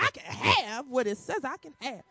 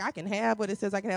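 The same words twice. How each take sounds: First: It is said boldly, with conviction. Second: It is said half-heartedly, without conviction.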